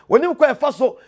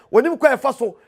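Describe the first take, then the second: No difference in how they are said.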